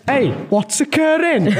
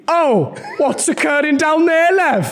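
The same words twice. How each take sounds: First: Slow Cardiff Welsh catchphrase; Cardiff accent. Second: Slow, sing-song south Wales voice; southern Welsh accent. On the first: Son doing a Welsh-off in a slow Cardiff accent. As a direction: drawl it out like a Cardiff local. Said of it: "you're being more like Cardiff". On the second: Mum in a Welsh-off doing a south Wales accent. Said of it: "I am doing more southern". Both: Acted.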